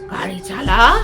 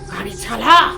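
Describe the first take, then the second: First: It is said loudly in a changed, eerie voice. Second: The same.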